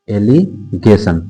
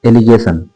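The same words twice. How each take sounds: First: "allegation" slowly split into "एलि" and "गेशन"; slow, two-part "allegation"; drawn-out dictation. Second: Said in the usual way. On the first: Shown as a demonstration. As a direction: pause inside "allegation", as if writing it. Teacher spells out topic slowly.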